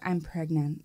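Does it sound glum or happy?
glum. It is said in a glum, downbeat way.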